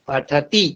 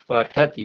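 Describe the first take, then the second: First: The final syllable is pressed hard. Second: The final syllable is said evenly, unpressed. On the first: The speaker calls it wrong. "ती को दबाते नहीं है, पठती ऐसे नहीं बोलना है" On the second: The speaker calls it right. "सामान्य रूप से वैसे ही उच्चारण करना है जैसे पूर्व वर्णों का"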